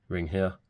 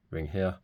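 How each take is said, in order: Both takes have the same delivery.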